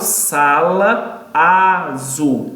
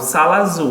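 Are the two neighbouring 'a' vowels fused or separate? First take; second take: separate; fused. First: Both 'a' vowels are pronounced separately. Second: The two 'a' vowels merge into one. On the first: The speaker calls it wrong. "Eu não falo sala azul" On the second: The speaker calls it right. "eu vou pronunciar apenas o som de um A e não dos dois"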